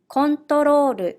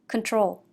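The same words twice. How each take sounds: First: It is said with Japanese katakana pronunciation. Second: It is said with English pronunciation. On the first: "I will read in Japanese first" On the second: "meaning control"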